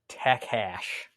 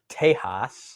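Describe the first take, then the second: First: The middle consonant is a hard K sound. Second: The middle consonant is a breathy H sound. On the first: The speaker calls it wrong. "I guess this guy's pronouncing it Takash ... I don't know where he's getting the K sound" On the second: The speaker calls it right. "So when you look up that word, it's Tejas"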